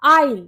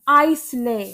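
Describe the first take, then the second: First: The word is said without an s sound. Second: The word is said with an s sound. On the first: The speaker calls it right. "इसकी correct pronunciation होती है आइल" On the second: The speaker calls it wrong. "क्या आप भी इसको आइसले बोलते हो?"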